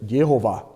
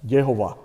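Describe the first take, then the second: No difference in how they are said.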